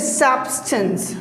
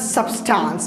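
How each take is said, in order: First: It has a short, reduced schwa vowel. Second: It has a full, longer vowel instead. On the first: The speaker calls it right. "because there is schwa sound" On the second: The speaker calls it wrong.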